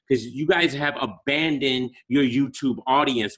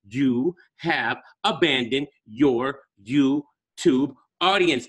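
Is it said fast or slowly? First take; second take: fast; slowly. First: It is said at a faster pace. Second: It is said slowly and deliberately.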